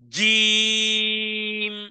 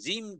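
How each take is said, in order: First: The j is pushed hard against the palate. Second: The j is said softly without a push. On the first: The speaker calls it right. "ধাক্কা দিতে হবে" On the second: The speaker calls it wrong. "ধাক্কা না দিলে হবে না, তাহলে হবে"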